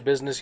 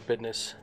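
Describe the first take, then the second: First: The middle is said with a plain z sound. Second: The middle is said with a d sound. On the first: The speaker calls it wrong. "you don't say business" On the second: The speaker calls it right. "you say business with a D, or a very loud apostrophe"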